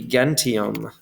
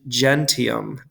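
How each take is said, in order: First: It is said in the classical pronunciation. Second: It is said in the ecclesiastical pronunciation.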